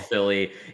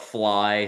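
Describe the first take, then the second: First: The name is said as two syllables, Philly. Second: The name is said as one syllable, fly. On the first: "some people call it Philly" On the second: "some people call it fly"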